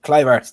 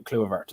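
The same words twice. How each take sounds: First: "Kluivert" said as KLY-vert; corrected pronunciation. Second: "Kluivert" mispronounced as KLOO-uh-vert; butchered pronunciation. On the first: Host repeating a colleague's correction, properly pronounced. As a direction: say "Kluivert" with an eye sound, louder and higher. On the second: Host stumbling over new signing's name, mispronounced. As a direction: say "Kluivert" with an oo in the first syllable. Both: Real, not acted. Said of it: "I'm butchering the pronunciation of that".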